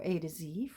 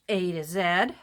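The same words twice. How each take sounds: First: The last letter is said as zee. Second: The last letter is said as zed.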